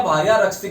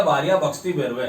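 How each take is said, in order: First: Said in the usual way. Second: "भक्षति" with bh in place of the r of रक्षति; garbled mantra. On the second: Shown as a demonstration. Storyteller showing the man's spoiled mantra, mispronounced as भक्षति. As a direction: swap रक्षति's first sound to भ: "भक्षति". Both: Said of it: "उसके बाद उसका उच्चारण बिगड़ गया".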